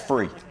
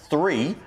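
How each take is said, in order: First: The word begins with an f sound. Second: The word begins with a th sound.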